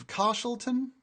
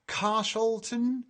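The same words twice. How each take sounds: First: Carshalton asked back with a high questioning rise; checking the name. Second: Slow, careful reading of Carshalton; careful first try. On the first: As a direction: query Carshalton as if unsure it's right. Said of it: "Is that it?". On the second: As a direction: sound out Carshalton slowly, syllable by syllable. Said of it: "Carshalton? Is that it?". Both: Shown as a demonstration.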